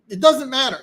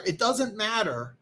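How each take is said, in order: First: Higher and louder, punched; emphatic. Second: Slow, softer, each word spaced; slow and deliberate. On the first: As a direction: hit "doesn't" hard and high. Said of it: "repeats the phrase with new emphasis". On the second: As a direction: let "doesn't" sink in slowly. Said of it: "repeats the phrase more slowly". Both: Shown as a demonstration.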